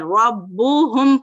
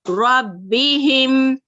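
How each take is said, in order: First: The vowels after b and h are u. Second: The vowels after b and h are i. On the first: The speaker calls it wrong. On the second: The speaker calls it right.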